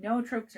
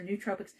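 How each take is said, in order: First: "nootropics" said as NO-oh-tropics; pronunciation trial. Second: "nootropics" said as NEW-tropics; alternative pronunciation. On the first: Host unsure of the herb term, trying "nootropics" as no-oh-tropics. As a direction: open "nootropics" with a long O, no-oh-TROH-pics. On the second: Host offering the other way, "nootropics" as new-tropics. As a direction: open "nootropics" with an OO sound, noo-TROH-pics. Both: Shown as a demonstration. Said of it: "I don't know if that's how you say it".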